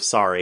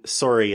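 First: Said in the usual way. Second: "sorry" with a rounded oh, like "soar-ee"; Canadian "sorry". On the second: Shown as a demonstration. Giving another Canadian example, "sorry" said as "soar-ee". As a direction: round the first vowel of "sorry" into oh. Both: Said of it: "sorry instead of sorry".

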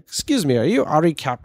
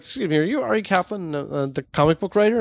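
First: Higher-pitched, badly faked British accent; terrible British accent. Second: Higher-pitched mock voice for an old British man; old British dude, accent abandoned. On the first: Old British man approaching a guest speaker, in a bad British accent. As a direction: attempt a hammy British accent. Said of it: "I'm gonna do a terrible British accent". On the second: Old British man approaching a comic book writer, in a half-hearted mock voice. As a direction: imitate him without committing to the accent. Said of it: "not even gonna bother to do the accent".

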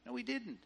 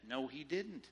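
First: "didn't" leaps much higher, cut short; emphatic denial. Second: Said in the usual way. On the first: Shown as a demonstration. Preacher rebuts the congregation again, higher emphatic denial. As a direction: repeat it higher and insistent.

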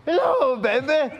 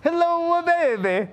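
First: High, loud, hammed-up Irish accent; badly faked Irish catchphrase; showy greeting in a mock Irish accent; would-be Irish accent. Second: High, hammed-up Italian accent; showy catchphrase in mock Italian accent. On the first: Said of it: "You wanna hear it in Irish?". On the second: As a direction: stretch the hello like a stage Italian. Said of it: "You wanna hear it in Italian?".

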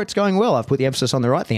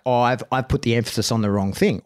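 First: A light lift of relief that it worked; pleased. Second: Said in the usual way. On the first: Retold or imitated. Trainer imagining the lesson landed, pleased and upbeat.

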